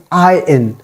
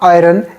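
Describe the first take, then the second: First: "I N" as one word, iron with silent r; "I N" gliding from eye into in, no r; corrected iron. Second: "iron" with the r sounded; "iron" with an r before the second vowel; mispronounced iron. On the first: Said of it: "R is totally silent here". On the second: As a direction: say "iron" as eye-ren. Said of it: "It is not iron". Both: Shown as a demonstration.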